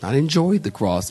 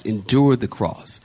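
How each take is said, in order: First: "enjoyed" stressed as the wrong word. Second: "endured" stressed as the correct word, falling to the end. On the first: Preacher correcting a word of scripture, stress on "enjoyed". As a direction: lean on "enjoyed" to rule it out. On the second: Preacher restating the scripture's true word, stress on "endured". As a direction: lean on "endured", lower pitch. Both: Shown as a demonstration.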